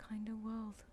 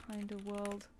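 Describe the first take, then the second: First: Slow, breathless whisper of the name; soft amused whisper after a laugh. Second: Said in the usual way. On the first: Shown as a demonstration. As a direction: hush it like a secret.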